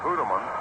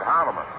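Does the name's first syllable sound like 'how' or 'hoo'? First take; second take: hoo; how. First: The first syllable sounds like 'hoo'. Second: The first syllable sounds like 'how'. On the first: This is how most people said the name. The speaker calls it wrong. "everybody called him" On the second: This is how the man himself preferred it. The speaker calls it right. "he preferred Houteman"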